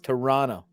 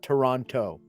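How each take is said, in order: First: The second T is not pronounced. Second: The second T is clearly pronounced. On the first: The speaker calls it right. "You don't say the second T. It's Toronto" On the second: The speaker calls it wrong. "not Toronto"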